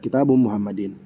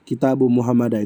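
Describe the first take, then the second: First: The last word ends with an 'in' sound. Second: The last word ends with an 'ah' sound. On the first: The speaker calls it right. "Yang benar" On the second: The speaker calls it wrong. "itu keliru"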